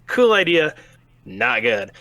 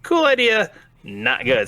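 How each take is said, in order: First: Cool idea rising, not good dropped flat; a rhythmic contrast of praise and letdown; mock verdict. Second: Exaggerated hope then letdown; mock verdict, louder hope. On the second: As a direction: swing way up on Cool idea, fall flat on not good. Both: Shown as a demonstration.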